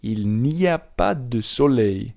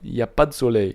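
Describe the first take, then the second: First: It starts with a full 'il n'y a'. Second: It starts directly with 'y a'. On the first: This is the written form. "When it's in written form, the phrase is" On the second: This is how natives speak casually. "There you go"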